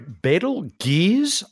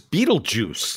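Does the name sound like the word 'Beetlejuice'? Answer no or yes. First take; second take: no; yes. First: The name does not sound like 'Beetlejuice'. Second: The name sounds like 'Beetlejuice'.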